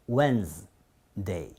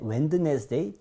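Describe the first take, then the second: First: The middle d is silent, two syllables. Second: Every letter is sounded, including the middle d. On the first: The speaker calls it right. "Wednesday 이렇게밖에 되지 않는 것 같다가" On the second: The speaker calls it wrong. "웬드네스데이 전혀 나오지 않는 거예요"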